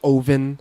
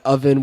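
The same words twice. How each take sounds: First: It is said in a Canadian accent. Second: It is said in a standard English accent.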